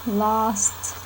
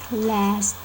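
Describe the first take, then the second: First: It is said with a non-American vowel. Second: It is said with an American vowel.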